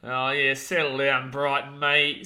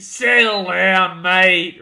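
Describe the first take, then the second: First: Said in the usual way. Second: Louder, slow, drawn-out "Settle down"; firm settle down. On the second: Real, not acted. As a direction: lean in and stretch "Settle down" to calm him. Repeats it to calm chat.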